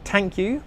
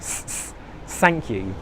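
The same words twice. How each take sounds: First: It begins with a hard t sound. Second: It begins with a hissing s sound. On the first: "with a T sound" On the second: "with the S sound"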